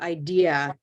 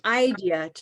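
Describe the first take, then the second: First: The stress is on the second syllable. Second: The stress is on the first syllable. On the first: The speaker calls it right. "to idea" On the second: The speaker calls it wrong. "you changed from idea"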